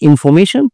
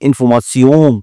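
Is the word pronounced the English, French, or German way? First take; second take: English; French. First: It is said with an English pronunciation. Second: It is said with a nasal French pronunciation. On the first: "ইংলিশে উচ্চারণ হয়" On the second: "ফরাসি ভাষায় বলে ইনফরমাশন, নাকে নাকে বলে ওরা"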